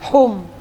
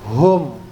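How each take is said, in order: First: The h is a light, plain breathy sound. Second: The h is a heavy, deep throat sound. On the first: The speaker calls it wrong. "Enggak boleh dibaca hum, hum, ya. Ha kecil" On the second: The speaker calls it right. "tapi harus ha besar"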